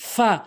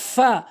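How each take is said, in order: Both takes have the same delivery.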